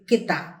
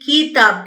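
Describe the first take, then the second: First: The first vowel is short. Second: The first vowel is long. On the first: The speaker calls it right. "छोटे ए की मात्रा का उच्चारण होता है ए" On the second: The speaker calls it wrong. "बड़ी ई की मात्रा के हिसाब से बोल दिया और वो गलत होगा"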